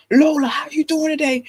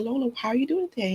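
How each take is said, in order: First: Put-on louder, strong booming greeting to a toddler; imitating husband's booming voice. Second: Higher, softer, quick sing-song greeting; sweet gentle voice. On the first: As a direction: boom "Lola" like a big scary dad. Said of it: "That's what you sound like to her". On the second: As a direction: coo "Lola" sweetly like to a baby. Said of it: "Watch this, honey". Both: Shown as a demonstration.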